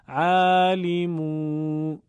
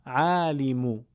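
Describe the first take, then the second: First: عالمو chanted loudly with the final "u" wrongly stretched to "uu"; overlong damma. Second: عالمو with a brief final "u"; short damma. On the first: Teacher shows the mistake, عالمو with overstretched ending. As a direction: drag out the last vowel of عالمو. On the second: Teacher corrects the mistake, عالمو with short ending. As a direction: cut the last vowel of عالمو short. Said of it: "باید کوتاه باشه آخرش". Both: Shown as a demonstration.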